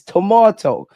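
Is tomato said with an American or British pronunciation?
British. Tomato is said with a British pronunciation. The speaker calls it right. "Like it's tomato"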